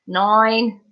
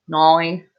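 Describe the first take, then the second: First: Slightly Australian nine. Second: Nine said the Australian way, like noin. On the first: Real, not acted. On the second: Shown as a demonstration. Streamer repeats nine in an Australian accent. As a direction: lean into the Australian vowel on Nine, noing. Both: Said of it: "sounded a little bit Australian there".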